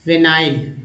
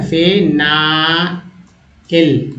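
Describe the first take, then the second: First: Said in the usual way. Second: फेनाइल drawn out very slowly, each syllable stretched; slow model pronunciation. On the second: Shown as a demonstration. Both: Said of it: "फेनाइल है ना".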